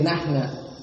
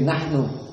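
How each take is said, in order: First: The word ends with an 'a' vowel. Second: The word ends with an 'u' vowel. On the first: This is the Yemeni dialect form. "they say nahna" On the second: This is the standard form. "So we say nahnu"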